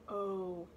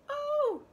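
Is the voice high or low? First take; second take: low; high. First: It is said in a low voice. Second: It is said in a high voice. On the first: "if I put it low, I want you to say it in a low voice" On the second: "if I hold the digraph up high, I want you to say it in a high voice"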